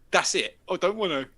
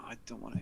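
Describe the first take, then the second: First: Louder sneering echo of I don't want to; mocking lad. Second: 1 flat refusal. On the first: Lad mocking the narrator's refusal, louder and sneering. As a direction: throw his words back at him. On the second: Retold or imitated. Narrator refuses quietly.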